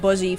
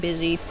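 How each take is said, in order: First: The first vowel sounds like 'buh'. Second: The first vowel sounds like 'bih'. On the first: The speaker calls it wrong. "I used to pronounce it Buzzy for the longest time" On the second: The speaker calls it right. "you're supposed to say, like, busy"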